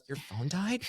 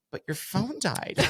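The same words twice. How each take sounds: First: Higher, softer, aghast little question; mock the young clerk's dismay at a dead phone; imitating a distraught clerk. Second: Higher, slow, softer disbelief; imitating a stunned clerk. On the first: Guest imitates the worried hotel clerk, mock distraught. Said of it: "Like, she almost was crying". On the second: Guest mimics the clerk stuck on the dead phone, slow mock disbelief. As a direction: drag it out like she can't get past it. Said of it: "She's like".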